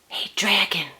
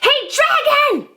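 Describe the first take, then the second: First: It is whispered very softly. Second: It is shouted very loudly.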